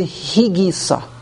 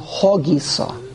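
First: The first vowel sounds like 'ee'. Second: The first vowel sounds like 'oh'. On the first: The speaker calls it wrong. "It's not the higisa" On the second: The speaker calls it right. "It's the hogisa"

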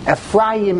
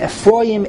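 First: The middle vowel is an open 'a' sound. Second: The middle vowel is a rounded 'o' sound. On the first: It is the ordinary form within the verse. "it changes from a patach" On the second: It is the form at the end of the verse. "to a komatz"

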